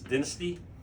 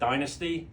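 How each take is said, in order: First: It uses the Australian pronunciation. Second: It uses the speaker's usual pronunciation.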